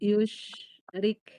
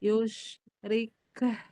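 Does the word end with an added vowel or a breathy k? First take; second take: breathy k; added vowel. First: The final k is released with only breath. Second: The final k is followed by an extra ha. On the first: The speaker calls it right. "dia ada apa, hamas" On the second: The speaker calls it wrong. "suka pada nambahin ha, bukan hamas"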